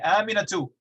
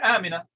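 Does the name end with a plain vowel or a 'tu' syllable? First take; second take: tu syllable; plain vowel. First: The name ends with a pronounced 'tu' syllable. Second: The name ends on a plain vowel. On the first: The speaker carries on as if more words follow. The speaker calls it wrong. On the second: The speaker stops on the word. The speaker calls it right. "They're always going to say"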